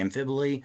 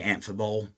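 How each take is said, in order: First: The word is said to rhyme with hyperbole. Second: The word is said with a short plain ending. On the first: "I think of like the word like hyperbole ... it's just more fun to say amphibole" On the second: "you could just say amphibole"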